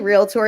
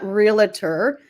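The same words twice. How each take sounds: First: The word is said with two syllables. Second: The word is said with three syllables. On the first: The speaker calls it right. "It's actually realtor. It's two syllables" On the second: The speaker calls it wrong. "It's not realtor"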